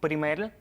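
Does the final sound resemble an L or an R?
L. The final R sounds like an L, Cuban style.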